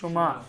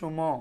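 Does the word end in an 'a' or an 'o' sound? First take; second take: a; o. First: The final vowel is an open 'a' sound. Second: The final vowel is a rounded 'o' sound. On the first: "তোমরা হইলে সুমা" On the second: "আধুনিক উচ্চারণ বললে সুম"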